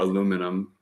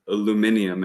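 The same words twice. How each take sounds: First: It is said the American way. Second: It is said the British way. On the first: It is the speaker's own usual way. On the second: It matches how the listeners say it.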